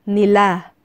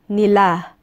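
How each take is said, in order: The two takes are said the same way.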